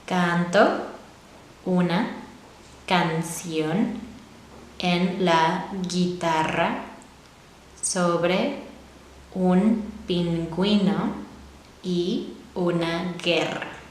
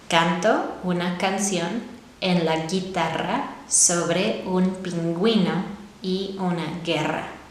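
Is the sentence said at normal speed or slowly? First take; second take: slowly; normal speed. First: It is said slowly. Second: It is said at normal speed.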